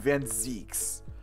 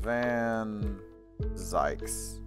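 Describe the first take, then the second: First: The second word does not rhyme with 'yikes'. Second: The second word rhymes with 'yikes'. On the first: The speaker calls it right. "or excuse me" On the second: The speaker calls it wrong. "I like Van Zykes more because it rhymes with yikes"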